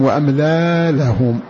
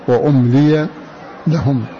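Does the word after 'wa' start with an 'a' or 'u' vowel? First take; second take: a; u. First: The word starts with a, ending in long a. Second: The word starts with u, with i before ya. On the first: This is the other recognized reading of the verse. "بفتح الهمزة واللام وألف بعدها" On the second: This is one recognized reading of the verse. "بضم الهمزة وكسر اللام وفتح الياء"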